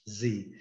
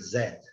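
First: It is said as 'zee', ending in a vowel. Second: It is said as 'zed', ending in d. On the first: "E no inglês americano eles chamam de Z" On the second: "No inglês britânico"

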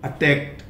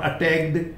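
First: The ending is a plain 't' sound. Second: The ending is an extra 'id' syllable. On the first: The speaker calls it right. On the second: The speaker calls it wrong.

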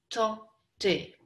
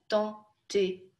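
The two takes are said the same way.

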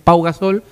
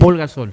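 First: The first name ends without an L sound. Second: The first name ends with an L sound. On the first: The speaker calls it right. "es Pau Gasol" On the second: The speaker calls it wrong. "y yo digo"

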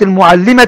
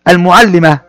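First: The word ends in a t sound, run on. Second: The word ends in an h sound, then stops. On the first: "تنطق تاء عند الحركة" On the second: "إذا وقفنا عليه نقول المعلمة"

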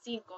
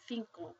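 First: The word begins with an s sound. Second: The word begins with a th sound. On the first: "instead of pronouncing this as cinco" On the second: "you'd call it cinco"

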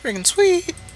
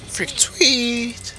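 First: The voice is put on and high-pitched. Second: The voice is pitched lower, near normal. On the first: The speaker calls it right. "Yeah, that's better" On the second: The speaker calls it wrong. "I can't do the high-pitched voice right now"

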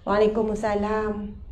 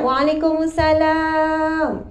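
First: It sounds weak and tired. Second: It sounds cheerful and happy.

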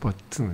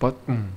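First: It is said with a Korean-style English accent. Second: It is said with a native English accent. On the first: "선생님은 완전 콩글리시로 버튼" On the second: "얘는 버튼"

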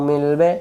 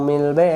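The two takes are said the same way.

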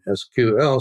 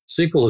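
First: It is spelled out as three letters. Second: It is said as one word, sequel. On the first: This is the official name of the language. "the official name of the language is now SQL" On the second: This is the informal form that is easier to say. "SQL is a lot easier to say"

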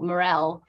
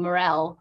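First: The stress is on the second syllable. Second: The stress is on the second syllable.

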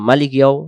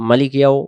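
Both takes have the same delivery.

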